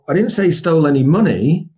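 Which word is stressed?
money. The stress is on the word money.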